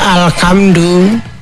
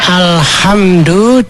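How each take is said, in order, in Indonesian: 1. Kata itu diucapkan dengan bunyi k. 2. Kata itu diucapkan dengan bunyi h.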